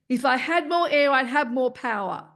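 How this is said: The voice is pushed hard from the throat. The speaker calls it wrong. "as if you were having to drive your voice out"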